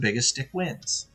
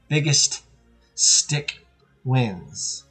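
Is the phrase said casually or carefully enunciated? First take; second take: casually; enunciated. First: The words are said casually, without special care. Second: Each word is carefully and clearly enunciated.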